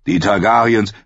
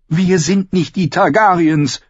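First: Said in the usual way. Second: High woman's voice, sharply insistent; emphatic sister. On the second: A narrator's reading. Sister rejects brother's Targaryen example, emphatic. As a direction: reject it in a high, forceful female voice. Sister throws the name back.

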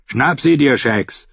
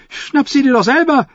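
First: Lightly voiced fighter giving an order; urging fighter. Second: Very high, squawking fool; jester's retort. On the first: Timion to his companion mid-fight, urging him on. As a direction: urge your companion to attack, slightly raised. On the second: The fool refuses Timion's order, high-voiced retort. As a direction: throw it back in a high jester's voice. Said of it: "gab Shackwell zurück". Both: A narrator's reading.

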